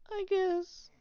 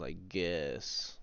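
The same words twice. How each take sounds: First: Very high, squeaky and louder. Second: Said in the usual way. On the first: Pretend. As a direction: squeak it out in falsetto. Sudden squeaky echo of the line.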